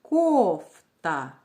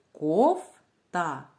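First: Кофта with a loud, long КОФ, then та; heavily stressed КОФ, lighter та in кофта; louder first syllable. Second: Кофта split slowly as коф, pause, та; syllable-by-syllable teacher demo of кофта. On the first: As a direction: stretch and punch the КОФ in кофта. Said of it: "Який склад ми чули голосніше?". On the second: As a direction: break кофта into two separate syllables. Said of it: "Давайте вимовимо слово по складам". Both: Shown as a demonstration.

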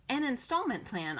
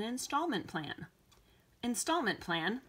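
First: INSTALLMENT raised, PLAN falling to a close; matter-of-fact confirmation. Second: INSTALLMENT PLAN with a rising questioning end; questioning echo. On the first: Girl explains to the store man, matter-of-fact confirmation. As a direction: state "An installment plan" with a settled falling end. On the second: Store man queries the girl's payment idea, questioning echo. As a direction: repeat "Installment plan?" back, lifting the end. Man echoes request in doubt. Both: A narrator's reading.

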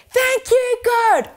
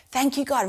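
First: Yelled out. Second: Said in the usual way. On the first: Shown as a demonstration. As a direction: shout it out with the kids. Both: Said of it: "could all yell out".

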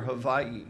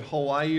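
First: Hawaii said with a v for the w; v pronunciation. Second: Said in the usual way. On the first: Shown as a demonstration. Preacher recalling his island confusion, Hawaii pronounced with a v. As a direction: say Hawaii as "Ha-VAI-ee". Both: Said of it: "great confusion over how to pronounce".

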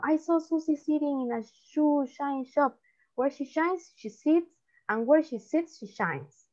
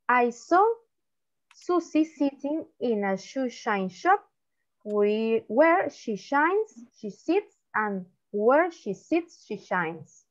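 First: Tongue twister run through more briskly; quicker demonstration. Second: Tongue twister read slowly, phrase by phrase; slow demonstration. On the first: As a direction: say it quicker, with shorter pauses between phrases. (trabalenguas dicho más rápido) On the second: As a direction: model it slowly, pausing between phrases. (trabalenguas leído despacio y por partes) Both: Shown as a demonstration. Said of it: "me van a decir rápido".

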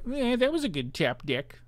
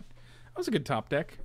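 First: Higher mock-sarcastic repeat; sarcastic high sing-song echo. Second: Said in the usual way. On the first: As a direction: parrot it back in a put-on sneer. Mocking repeat of own comment.

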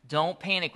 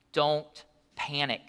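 First: Said in the usual way. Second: Each word laid down slowly; slow emphatic point. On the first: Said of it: "Number one". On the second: Shown as a demonstration. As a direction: spell out the key point slowly so they write it. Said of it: "write this down".

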